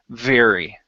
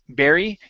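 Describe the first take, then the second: First: The word begins with a V sound. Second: The word begins with a B sound. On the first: The speaker calls it right. "make sure you're saying v, very" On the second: The speaker calls it wrong. "instead of saying berry"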